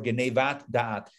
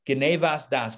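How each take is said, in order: First: The words end with a T sound. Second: The words end with an S sound. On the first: "depending on how you want to pronounce it"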